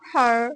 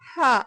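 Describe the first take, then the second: First: The word ends with an audible r sound. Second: The word ends without an r sound. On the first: "American অ্যাকসেন্টে আর, হার, এরকম ভাবে উচ্চারিত হয়" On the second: "British অ্যাকসেন্টে আরটা উচ্চারিত হয় না"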